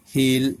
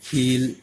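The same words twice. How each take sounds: First: Heel said with a clipped short vowel. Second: Heel with a drawn-out ee vowel; heel, long vowel. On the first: Teacher contrasting short and long vowels, short heel. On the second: Teacher contrasting short and long vowels, long heel. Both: Shown as a demonstration. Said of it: "Shorter than this".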